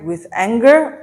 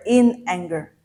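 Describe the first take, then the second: First: "with anger" louder, rising on "anger"; first alternative. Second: "in anger" with stress on "in", falling away; second alternative. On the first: Teacher offers learners a first choice, rising on "anger". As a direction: lift "anger" questioningly, stressed and loud. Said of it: "Do I write". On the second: Teacher offers learners the other choice, stressing "in" and falling. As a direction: stress "in", then let "anger" drop to close the question. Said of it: "or do I write". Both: Shown as a demonstration.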